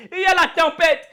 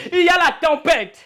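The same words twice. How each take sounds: The two takes are said the same way.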